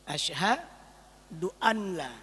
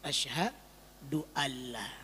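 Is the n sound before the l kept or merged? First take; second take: kept; merged. First: The n sound is pronounced before the l. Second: The n sound merges into a doubled l. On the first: "Nah ini gimana baca?" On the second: "nun mati berjumpa dengan lam berubah menjadi"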